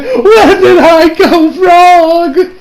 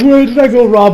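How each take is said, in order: First: High, very slow, loud crying plea; mock tearful wail. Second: A lighter, quicker version of the wail; a touch of mock crying; milder tearful plea. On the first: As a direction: drag it out like a hammed-up sob. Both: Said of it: "she's still tearing up".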